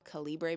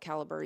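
First: The middle sounds like the word 'libra'. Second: The middle does not sound like 'libra'. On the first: The speaker calls it right. "it probably should be Calibre because there's like a Libra reference in there" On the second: The speaker calls it wrong. "I call it Calibre"

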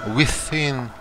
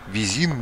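First: The middle consonant is said as a th. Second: The middle consonant is said like a z. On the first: The speaker calls it right. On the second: The speaker calls it wrong.

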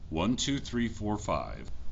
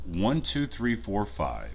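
First: The recording level is set to 70 percent. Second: The recording level is set to 90 percent. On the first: "This is with audio set to 70%" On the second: "So this is at 90% audio"

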